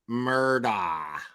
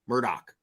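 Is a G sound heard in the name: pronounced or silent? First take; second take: silent; pronounced. First: The name is said with a silent G. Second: The name is said with a pronounced G. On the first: The speaker calls it wrong. "No, dude" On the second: The speaker calls it right. "the G is not silent, okay? It's pronounced Murdoch"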